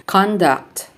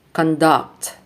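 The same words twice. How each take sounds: First: CONduct, stressed on the first syllable; noun stress. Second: ConDUCT, stressed on the second syllable; verb stress. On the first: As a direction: punch CON in Conduct, then let it fall. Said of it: "nouns are stressed on the first syllable". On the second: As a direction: reduce con, lean on DUCT in conduct. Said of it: "verbs are stressed on the second syllable". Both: Shown as a demonstration.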